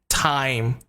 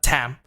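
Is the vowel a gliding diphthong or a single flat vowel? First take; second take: diphthong; flat vowel. First: The vowel glides from an a to an ee sound. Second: The vowel is a single flat a sound. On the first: The speaker calls it right. "the sound I here is a diphthong" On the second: The speaker calls it wrong. "not just tam"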